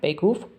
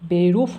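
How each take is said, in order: First: The middle r is a throaty back r. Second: The middle r is a clear front r. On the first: The speaker calls it right. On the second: The speaker calls it wrong. "বেরুফ না"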